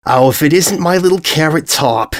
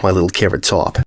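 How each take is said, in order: First: High, sing-song call across the square; a doting mom spotting her girl, pitched up; mother calling out her pet name with delight; gushing mother greeting. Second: Mother saying goodbye to her daughter with affection; tender farewell. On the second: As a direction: let the pet name settle gently. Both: Acted.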